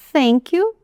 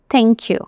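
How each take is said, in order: First: It starts with a soft TH, tongue between teeth. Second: It starts with a hard T sound. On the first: "com essa língua no meio dos dentes, assim" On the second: "a gente transformar num T e ficar thank you"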